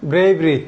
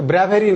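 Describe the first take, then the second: First: "ব্রেভরি" with a long "ei" glide; correct bravery. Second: "ব্র্যাভেরি" with an open "a" as in bat; mispronounced bravery. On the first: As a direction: say "ব্রেভরি" as BREIV-ri. ("ব্রেভরি", সঠিক উচ্চারণে "ব্রেই") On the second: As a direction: say "ব্র্যাভেরি" as BRA-ve-ri, the mistaken way. ("ব্র্যাভেরি", ভুল উচ্চারণে "ব্র্যা") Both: Shown as a demonstration. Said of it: "উচ্চারণ হবে".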